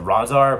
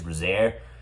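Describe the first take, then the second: First: The final vowel is a plain open A, as 'ar'. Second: The final vowel sounds like an E, as 'air'. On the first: It would name a different character. The speaker calls it wrong. "but that's like different character" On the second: It names this particular character. The speaker calls it right. "although it sounds like I'm trying to say an E"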